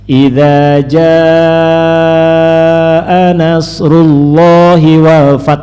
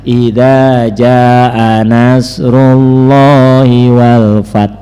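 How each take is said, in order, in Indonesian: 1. Vokal yang ditandai dibaca panjang. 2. Vokal yang ditandai dibaca pendek. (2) "dibaca ... contoh ngurud, ngerok, tanda halis"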